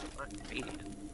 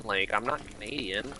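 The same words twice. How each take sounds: First: I'm not Canadian fades to an unvoiced whisper; trailing whisper. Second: Said in the usual way. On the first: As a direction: let it die to a breathy aside. Repeated correction, voice drops away.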